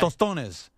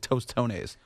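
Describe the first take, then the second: First: It is said with a native Spanish accent. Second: It is said with an American English accent. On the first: The speaker calls it right. "But it's tostones" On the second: The speaker calls it wrong. "if I'm going to say it like a gringo"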